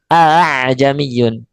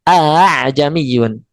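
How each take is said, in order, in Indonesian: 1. Hamzah kedua diringankan. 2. Hamzah kedua diringankan.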